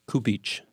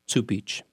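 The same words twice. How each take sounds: First: The name is said the way it is spelled. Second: The name is said differently from its spelling. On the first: The speaker calls it wrong. "It's spelled like Cupich" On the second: The speaker calls it right. "but it's Cupich"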